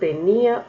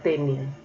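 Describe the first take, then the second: First: The stress is on the second syllable. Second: The stress is on the first syllable. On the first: It is a past form of the verb to have. "Tenía del verbo tener, lo diferencio poniéndole tilde" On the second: It names a parasite. "y tenia sin tilde, entonces sería ese, ese nombre"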